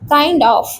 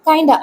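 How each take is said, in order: First: The words are said separately in full. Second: The words are run together into one short word.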